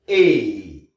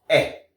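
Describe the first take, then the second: First: The letters ai are said the English way. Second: The letters ai are said the French way. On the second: "Français"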